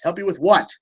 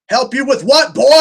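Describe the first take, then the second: First: Said in the usual way. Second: Louder, higher exasperated call; annoyed shout. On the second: Real, not acted. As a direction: raise your voice, exasperated.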